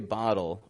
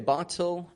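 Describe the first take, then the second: First: The middle T is a quick flapped sound. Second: The middle T is a clear, crisp T. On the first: This is how an American accent says it. "I'd say bottle" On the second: This is how the other speaker's accent says it. "where you would say bottle"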